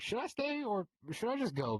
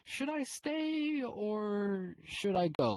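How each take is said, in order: First: It is asked in a plain, neutral tone. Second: It is asked in a guilt-tripping, needy tone.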